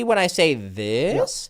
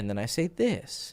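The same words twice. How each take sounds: First: THIS drawn out with a pitch lift; slow down and swing up on "this"; stretched, lifted "this"; varied intonation. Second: "this" dropped low and soft; low, quiet contrast ending on "this"; varied intonation. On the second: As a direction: bring "and then I say this" down, hushed. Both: Shown as a demonstration. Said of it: "Use intonation".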